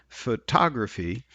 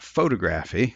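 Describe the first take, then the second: First: The stress is on the second syllable. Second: The stress is on the first syllable. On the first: The speaker calls it right. "is stressed in the second syllable" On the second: The speaker calls it wrong. "not in the first one. It's not"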